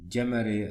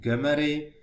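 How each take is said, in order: First: The name is said with a non-Hungarian pronunciation. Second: The name is said with the Hungarian pronunciation. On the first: "with another pronunciation like Gemery" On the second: "the original is Hungarian pronunciation Gemery"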